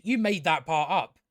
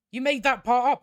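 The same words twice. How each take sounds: First: Said in the usual way. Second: Raised, higher, louder and insistent; louder insistent repeat. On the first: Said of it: "retort to her in story". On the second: Retold or imitated. Retorting to the princess, exasperated and louder. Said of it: "repeated retort, louder".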